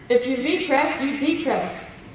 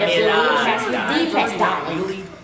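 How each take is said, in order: First: It is said in the speaker's normal voice. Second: It is said in an imitation of Edna's voice.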